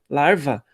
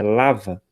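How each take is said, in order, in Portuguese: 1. Diz-se um som de R antes do V. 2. Não se diz som de R antes do V. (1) "alguns falam errado, não é larva com R" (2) "é L A V A, é lava"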